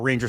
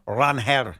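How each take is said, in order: First: The middle consonant is an English j sound. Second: The middle consonant is a breathy h sound. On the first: The speaker calls it wrong. "I'm going to say it incorrectly" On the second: The speaker calls it right. "It's not pronounced that way"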